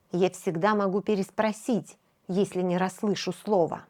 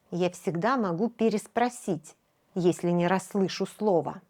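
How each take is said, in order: Both takes have the same delivery.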